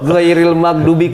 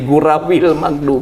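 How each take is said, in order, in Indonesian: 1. Kata pertama diucapkan dengan jelas sebagai ghairil. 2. Kata pertama diucapkan kurang jelas menjadi gurawil.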